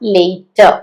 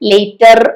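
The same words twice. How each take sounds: First: The final r sound is dropped. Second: The final r sound is clearly pronounced. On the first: The speaker calls it right. "ആ ആറ് അവസാനം ശരിക്കും ഇംഗ്ലീഷിൽ അങ്ങനെ ഉച്ചരിക്കാറില്ല" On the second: The speaker calls it wrong. "ലേറ്റർ എന്ന് പറയണ്ട"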